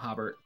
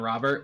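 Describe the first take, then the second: First: The name starts with an H sound. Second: The name starts with an R sound. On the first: Portuguese speakers say it this way. "we call him Hobart" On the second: This is the name's usual form. "my friend Robert"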